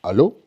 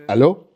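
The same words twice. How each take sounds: First: Suspicious low French "Hello?" on the phone; paranoid French hello. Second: Mock French phone answer, laughing; paranoid French hello. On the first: Retold or imitated. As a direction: answer like a wary Frenchman. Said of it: "sound paranoid whenever they answer". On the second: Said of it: "sound paranoid".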